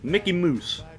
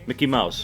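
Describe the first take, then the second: First: Mouse is said like moose, a Canadian imitation. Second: Mouse is said in the speaker's ordinary accent.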